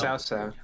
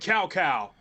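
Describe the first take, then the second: First: Each syllable begins with a ts sound. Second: Each syllable begins without a ts sound. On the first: The speaker calls it right. "it's pronounced with T S. Like that, that's how it's pronounced" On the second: The speaker calls it wrong. "Dynasty Warriors notoriously got Sao Sao wrong"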